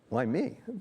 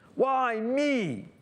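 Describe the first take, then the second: First: It sounds wondering and hopeful. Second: It sounds bitter and accusatory.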